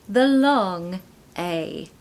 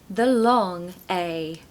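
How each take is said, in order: No difference in how they are said.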